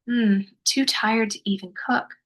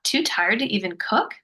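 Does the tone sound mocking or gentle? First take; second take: gentle; mocking. First: It sounds gentle and affirming, softly said. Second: It sounds mocking, with a scoffing tone.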